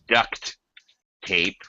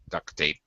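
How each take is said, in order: First: The T at the end of duct is pronounced. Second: The word sounds like duck, with no T. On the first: "It is duct tape" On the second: "It will sound like duck, quack, quack, duct tape. We just don't pronounce the T"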